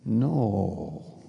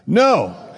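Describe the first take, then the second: First: The vowel is drawn out long. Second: It is said loudly.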